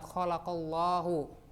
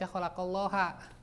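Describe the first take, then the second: First: The word ends with a 'u' vowel. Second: The word ends with an 'a' vowel. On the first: God is the one who creates. The speaker calls it right. "ada kalimat" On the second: God is the one being created. The speaker calls it wrong. "tidak boleh dibaca"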